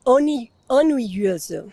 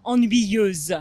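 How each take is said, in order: First: "ennuyeuse" slow, after one false start; careful repeat. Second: "Ennuyeuse" slow, final z sound clear; teacher models "Ennuyeuse" for the learner; model pronunciation. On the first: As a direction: learner carefully copies "ennuyeuse". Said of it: "très bien". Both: Shown as a demonstration.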